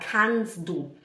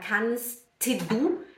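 First: The t sound in kannst is dropped. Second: The t sound in kannst is clearly pronounced. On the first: The speaker calls it right. "a gente fala kannst du, kannst du. O T, ele some, desaparece" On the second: The speaker calls it wrong. "a gente não fala kannst du"

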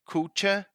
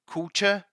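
Both takes have the same delivery.

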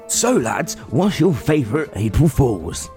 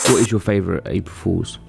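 First: It is asked in an overdone podcast-host voice. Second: It is asked flatly with no punch.

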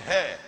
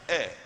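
First: The word begins with an audible H sound. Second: The word begins directly with a vowel sound. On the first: The speaker calls it wrong. "Some say hair, but it's not hair" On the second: The speaker calls it right. "it's air. The H is silent"

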